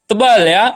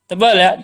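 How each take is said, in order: No difference in how they are said.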